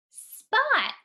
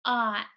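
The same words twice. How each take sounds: First: "Spot" said whole, higher and louder; blended answer. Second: "S-p-ot" split into separate sounds; sounding out spot. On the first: Teacher to pupils, bright high reveal of the blended word. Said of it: "What's the word?". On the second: Teacher pointing at letters, sounding out slowly. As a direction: sound out "S-p-ot" one piece at a time. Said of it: "Sound it out with me". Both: Shown as a demonstration.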